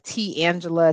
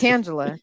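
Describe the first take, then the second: First: The T is set apart and stressed. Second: The T blends smoothly into the name. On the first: The speaker calls it wrong. "they just put the wrong emphasis on the wrong syllable" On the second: The speaker calls it right. "it's just Tangela"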